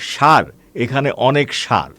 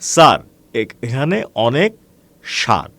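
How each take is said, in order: First: Both 'sar' words start with a 'sh' sound. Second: The two 'sar' words start with different sounds. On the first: The speaker calls it wrong. "দুটোকেই তালব্য শ যুক্ত উচ্চারণ করে ফেলার ফলে" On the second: The speaker calls it right. "আসলে হবে"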